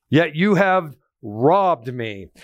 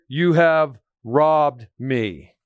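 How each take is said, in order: First: Slow, stress on "you" in "Yet you have robbed me"; emphatic verse. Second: Very slow, stress on "have" in "you have robbed me"; emphatic verse. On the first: Preacher reading the verse to the church, slow stress on "you". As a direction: lean on "you", slow and weighty. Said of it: "God is emphatic about this". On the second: Preacher showing the church the exclamation point, slow stress on "have". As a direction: drag it out, hitting "have". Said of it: "You notice it's an exclamation point". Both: Shown as a demonstration.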